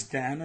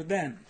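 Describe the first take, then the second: First: "than" with an a vowel, rising; contrasted vowel. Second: "then" with an eh vowel, falling; contrasted vowel. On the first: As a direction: lift "than" as the first option. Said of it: "whether it's". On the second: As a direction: drop "then" as the second option. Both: Shown as a demonstration.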